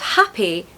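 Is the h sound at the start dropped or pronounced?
pronounced. The word begins with a clear h sound. "instead of happy"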